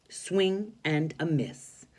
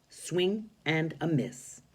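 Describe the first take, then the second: The two takes are said the same way.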